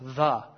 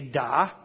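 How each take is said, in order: First: The consonant is a soft th sound. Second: The consonant is a hard d sound. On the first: The letter is written without the dot. "you would say it without the dot. It's the" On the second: The letter is written with the dot. "now we have a dagesh lane. So you would say da"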